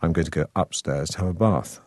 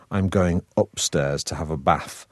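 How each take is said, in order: First: RP accent, long A in "bath"; received pronunciation. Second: Slow northern English accent; broad Manchester vowels, short A in "bath". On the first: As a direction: taught drama-school RP. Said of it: "when you do receive pronunciation, then you have to say". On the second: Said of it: "how I would have said it in my original accent". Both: Shown as a demonstration.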